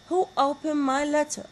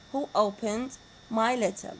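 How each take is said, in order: First: WHO lifted high and louder, question read with emphasis; stress on WHO. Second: "Who opened my letter?" said evenly, pitch falling at the end; plain falling tune. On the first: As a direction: hit "who" high and strong at the start. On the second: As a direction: let the question drop down on "letter". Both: Shown as a demonstration. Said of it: "They are all having falling intonation".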